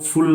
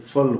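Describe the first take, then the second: First: The suffix has a full 'oo' vowel, like 'full'. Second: The suffix has a short reduced vowel, like 'fal'. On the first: The speaker calls it wrong. "फुल नहीं" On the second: The speaker calls it right. "सही मायने में इसका pronunciation फल होता है"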